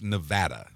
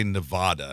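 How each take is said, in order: First: Nevada with the flat A of cat in VAD; correct local pronunciation. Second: Nevada as nuh-VAH-duh, broad middle A; common outsider pronunciation. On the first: Co-host hesitantly correcting the host's state name, flat-A pronunciation. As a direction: say "Nevada" with a short, flat middle A. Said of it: "it's pronounced Nevada". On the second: Co-host showing what locals hate, broad-A pronunciation. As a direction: say "Nevada" with an open AH in VAD. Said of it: "a lot of people say Nevada". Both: Shown as a demonstration.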